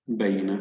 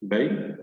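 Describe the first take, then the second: First: Said in the usual way. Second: "بين" broken as بَيْ, pause, نَ; syllable by syllable. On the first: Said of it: "سنعيد قراءة الكلمة بشكل كامل". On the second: Shown as a demonstration. Teacher reads this word for learners in syllables, with a gap. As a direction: sound out "بين" in two separated syllables. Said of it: "فاصل قصير بين المقاطع".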